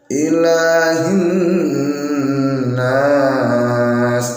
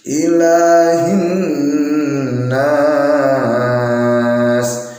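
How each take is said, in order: No difference in how they are said.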